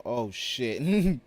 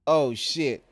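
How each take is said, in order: First: Loud startled curse; surprised. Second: Louder, higher shocked curse. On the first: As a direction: caught off guard, loud. Surprise in game. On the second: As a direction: really caught out, loud. Bigger surprised curse. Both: Real, not acted.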